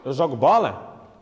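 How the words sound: It is a question, rising at the end.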